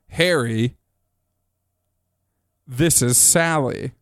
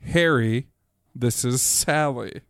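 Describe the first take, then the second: First: There is a marked pause after Harry. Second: It is said without a marked pause after Harry.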